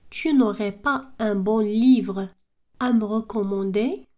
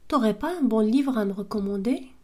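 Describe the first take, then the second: First: The opening is said fully as 'tu n'aurais'. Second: The opening is shortened to 't'aurais'. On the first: "Au lieu de dire tu n'aurais" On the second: "À l'oral, on dit t'aurais"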